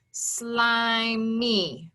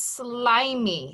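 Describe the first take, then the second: First: "Slimy" stretched slowly into sly, mee; pounded syllables. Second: Said in the usual way. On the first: Shown as a demonstration. Teacher pounding out the word for pupils, "Slimy" split slowly in two. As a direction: lengthen both syllables of "Slimy" on level beats. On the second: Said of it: "So the word is slimy".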